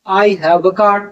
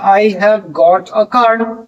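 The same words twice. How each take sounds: First: Said in the usual way. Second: Slow British example. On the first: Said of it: "American English में". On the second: Shown as a demonstration. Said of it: "British English में have के बाद got लगता है".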